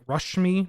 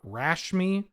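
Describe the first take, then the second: First: The first vowel sounds like 'uh'. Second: The first vowel sounds like 'a' in cat. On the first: The speaker calls it right. "I think it's pronounced uh, so like Rushmi" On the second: The speaker calls it wrong. "not Rashmi"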